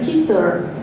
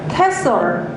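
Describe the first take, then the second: First: The first vowel sounds like 'ee'. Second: The first vowel sounds like 'eh'. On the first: "또 다른 그 스테이트에서는 티솔이라고도 해요" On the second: "이게 발음을 테솔"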